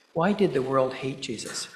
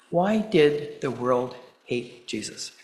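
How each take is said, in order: First: Said in the usual way. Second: Spaced out with pauses, punch on "why"; measured rhetorical question, stretched out; slow, deliberate question. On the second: Real, not acted. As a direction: ask it slowly, letting each phrase hang. Rhetorical question, then repeated straight after.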